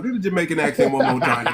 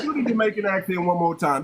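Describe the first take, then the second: First: Laughing through the request; giggling as he asks again. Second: Said in the usual way. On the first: Real, not acted.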